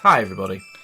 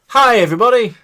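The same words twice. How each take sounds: First: It is said flatly, with little energy. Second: It is said brightly, with more energy.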